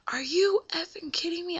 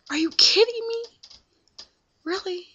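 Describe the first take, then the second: First: Higher, incredulous swearing; angry outburst. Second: Much higher and louder, outraged; louder, higher furious retort; furious yell. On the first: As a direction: pitch jumps up in retold disbelief. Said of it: "I started dropping F-bombs". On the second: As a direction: scream it at him in disbelief. That made me mad. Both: Retold or imitated.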